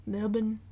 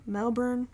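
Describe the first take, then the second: First: "Melbourne" squashed to MEL-bun, r dropped; attempted local pronunciation. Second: Said in the usual way. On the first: Shown as a demonstration. Unsure host trying Melbourne the way locals say it, attempted local pronunciation. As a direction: say "Melbourne" as MEL-bin, swallowing the second syllable. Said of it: "They get mad when people say it wrong". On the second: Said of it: "how do they say it? They get mad when people say it wrong".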